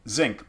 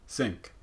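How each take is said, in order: First: The first sound is a fully voiced z. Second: The first sound is only partly voiced. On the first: "It's not quite zinc" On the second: "it's kind of in that land in between"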